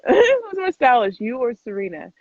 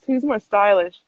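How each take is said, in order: First: Rereading the question through a laugh. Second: Said in the usual way. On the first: Real, not acted.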